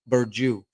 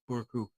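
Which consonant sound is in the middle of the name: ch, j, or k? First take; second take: j; k. First: The middle consonant is a j sound. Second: The middle consonant is a k sound. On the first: The letter has no tail. "C is um yeah, like a J" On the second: It is read as the spelling looks. "it looks like Burku"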